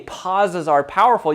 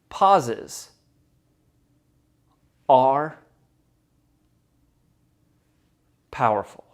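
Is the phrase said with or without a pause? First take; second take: without; with. First: It is said straight through without pausing. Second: It is said with a deliberate power pause.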